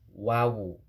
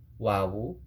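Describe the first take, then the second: First: The letter name has two syllables. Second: The letter name has two syllables.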